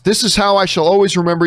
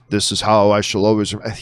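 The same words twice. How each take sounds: First: It is read in the speaker's ordinary voice. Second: It is said in a put-on villain voice.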